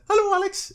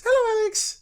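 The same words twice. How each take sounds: First: Very high, tiny Welsh voice; a miniature man squeaking in a Welsh accent; Rod's little Welsh accent. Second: Very high, tiny squeaky man. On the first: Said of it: "in his little Welsh accent". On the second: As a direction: say it as a teeny miniature person. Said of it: "In a tiny voice". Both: Retold or imitated.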